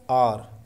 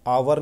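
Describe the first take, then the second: First: It is said as a single short syllable. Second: It is said as two syllables, a-war. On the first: The speaker calls it right. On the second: The speaker calls it wrong.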